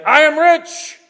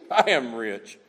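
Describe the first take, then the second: First: Bragging. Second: Low, soft, self-satisfied; smug bragging. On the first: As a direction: crow it out proudly. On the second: Preacher voicing the church, low smug murmur. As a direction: savour it quietly to yourself. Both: Retold or imitated. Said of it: "They were bragging about this".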